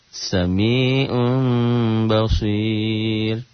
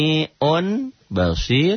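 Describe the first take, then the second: First: The n becomes a slightly nasal m sound. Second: The first word ends with a plain n sound.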